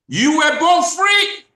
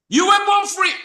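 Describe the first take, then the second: First: Slow, much higher and louder, every word weighted; slowly. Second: Much higher and louder, a preacher's ringing cry; ringing proclamation. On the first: Shown as a demonstration. Host to YouTube audience, announced slow loud proclamation. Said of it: "I'm gonna say that slowly". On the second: Real, not acted. Host repeating the quote to viewers, ringing loud cry. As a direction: ring it out to the whole room. Repeating the key line to audience.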